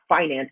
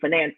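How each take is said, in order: First: The word is said the plainer-sounding way. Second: The word is said the smarter-sounding way. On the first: This is the pronunciation the speaker avoids. The speaker calls it wrong. "not finance" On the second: This is the pronunciation the speaker uses. The speaker calls it right. "I say finance"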